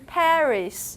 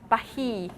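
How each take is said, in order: First: English accent, with the final s sounded. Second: French accent, with a throaty r and no s. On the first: "the English pronunciation Paris" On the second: "the French pronunciation Paris"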